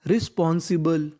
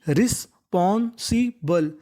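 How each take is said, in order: First: Said in the usual way. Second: रिस्पॉन्सिबल drawn out, ris-pon-si-bal; teacher modelling a hard word slowly; slow model word. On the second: Shown as a demonstration. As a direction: stretch रिस्पॉन्सिबल syllable by syllable. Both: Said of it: "रिस्पॉन्सिबल का मतलब होता है जिम्मेदार".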